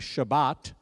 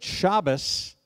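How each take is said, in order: First: It is said the Sephardic way, ending in t. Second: It is said the Ashkenazi way, ending in s.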